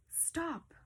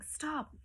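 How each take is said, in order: First: Sharp high command; commanding stop. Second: A clipped, raised stop; firm command. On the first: Teacher demonstrating a command to the class, sharp and high. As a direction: order them to stop, up high. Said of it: "that's not a complete sentence, but I'm saying". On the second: Teacher showing students how a command sounds, firm. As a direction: say it like an order. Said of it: "but I'm saying". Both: Shown as a demonstration.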